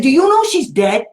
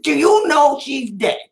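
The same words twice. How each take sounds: First: A pointed, loaded question, no louder than telling the story. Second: A slow, deliberate, loaded question; slow it down and let the gotcha land; deadpan gotcha. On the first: Retold or imitated. Advocate needles the special ed director at the hearing, pointed. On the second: Shown as a demonstration. Advocate re-enacts cornering the director at the hearing, slow and deadpan. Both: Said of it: "I said it just like that".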